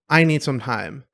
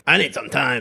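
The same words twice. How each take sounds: First: Said in the usual way. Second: Quick huffy mock outburst; mildly acted storming-off line. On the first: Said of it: "as long as you say it respectfully". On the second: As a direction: blurt it as if stomping out of the room. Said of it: "not kinda stomp out of the room".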